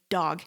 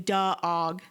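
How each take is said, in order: First: The first consonant joins the vowel directly. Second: An extra uh vowel follows the first consonant. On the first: The speaker calls it right. "We say dog" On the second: The speaker calls it wrong. "We don't say duh-og"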